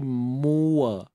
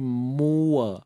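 First: The two vowels are separated by a rounded w. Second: The two vowels are separated by a rounded w.

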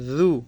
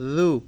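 No difference in how they are said.

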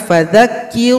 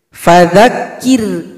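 First: The r is thick, with the lip raised. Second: The r is thin, with the lip still. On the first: The speaker calls it wrong. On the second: The speaker calls it right.

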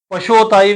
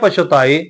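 First: The second syllable has an o vowel. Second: The second syllable has a light u vowel. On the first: The speaker calls it wrong. "ਪਛੋਤਾਏ ਵੀ ਨਹੀਂ ਕਹਿਣਾ, ਹੋੜਾ ਵੀ ਨਹੀਂ ਉਚਾਰਨ ਕਰਨਾ" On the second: The speaker calls it right. "ਛੱਛੇ ਤਲੇ ਹਲਕੀ ਦੀ ਆਪਾਂ ਔਂਕੜ ਉਚਾਰਨ ਕਰਾਂਗੇ"

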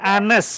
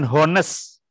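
First: The word begins without an h sound. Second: The word begins with an audible h sound. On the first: The speaker calls it right. "hanya nggak dibaca" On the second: The speaker calls it wrong. "bukan honest"

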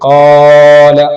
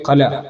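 First: The first vowel is stretched far too long. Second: The first vowel is cut short. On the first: "ഖാല പോലെ അല്ലെങ്കിൽ ഖല പോലെ, ഇത് രണ്ടും തെറ്റായ രൂപമാണ്" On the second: "ഇത് രണ്ടും തെറ്റായ രൂപമാണ്"

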